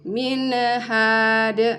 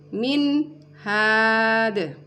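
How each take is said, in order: First: The n is bounced with a small release. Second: The n is cut off before the h. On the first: "nun sukunnya tidak boleh dipantulkan" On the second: "tidak boleh terputus"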